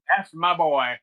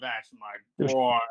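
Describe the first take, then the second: First: The voice sounds proud and pleased. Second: The voice sounds let down and disappointed. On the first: The father approves of his son. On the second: The father is ashamed of his son.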